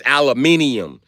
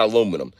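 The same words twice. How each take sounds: First: ALUMINIUM with five syllables, al-a-MIN-i-um; British-style aluminium. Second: ALUMINUM said the American way, a-LOO-mi-num. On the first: Teaching y'all the word, slow British-style aluminium. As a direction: draw out "aluminium", stressing MIN. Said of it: "That word is aluminium". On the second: Correcting people on the word, American aluminum. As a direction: stress the LOO in "aluminum", four syllables. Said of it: "That's not aluminum". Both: Shown as a demonstration.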